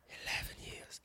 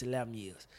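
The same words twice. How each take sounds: First: Hushed, voiceless whisper; awed whisper. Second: Said in the usual way. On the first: Real, not acted. Fan waiting on this for years, awed whisper. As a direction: whisper it as if it's sinking in. Repeats the long wait in awe.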